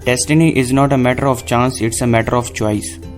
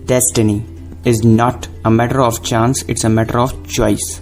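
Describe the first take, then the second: First: The words are said evenly, without extra emphasis. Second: Destiny, not and choice are said with emphasis. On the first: "मैं एक line अगर ऐसे कहूँ" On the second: "जिन पे अगर मैं जोर देकर बोलूँ"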